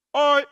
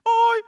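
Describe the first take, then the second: First: "oi" a step lower than the call before; a lower second "oi" in the code. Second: "Oi" thrown up very high and loud; a high signal "Oi" across the valley; high code call. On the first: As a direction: answer "oi" lower down. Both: Shown as a demonstration. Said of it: "ini nada tinggi".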